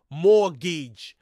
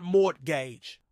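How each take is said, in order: First: Mortgage as MOR-kij, a hard k in the middle; claimed correct mortgage. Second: Mortgage as MORT-gage, the t sounded and gage rhyming with "page"; wrong mortgage, slow. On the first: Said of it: "The correct pronunciation is mortgage". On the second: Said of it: "not mortgage". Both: Shown as a demonstration.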